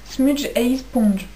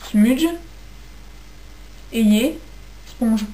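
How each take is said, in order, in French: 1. Il est prononcé avec un accent anglais. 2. Il est prononcé avec un accent français. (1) "mon accent anglais" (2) "En français, ça fait"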